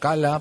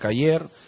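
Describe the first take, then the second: First: The middle consonant is an l, ending in a. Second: The middle consonant is a y sound, ending in r. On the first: This is how it is said in Germany. "en Europa, Alemania, Cala" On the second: This is how people in the highlands say it. "en la sierra pronuncian Cayer"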